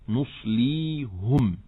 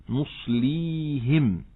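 No difference in how they are said.

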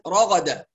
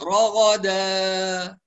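First: The final long vowel is cut off almost entirely. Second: The final long vowel is stretched far too long. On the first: "يبتر الحرف يقول رغدا كأن الألف تضيع تماما" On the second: "البعض يبالغ في إطالة المد"

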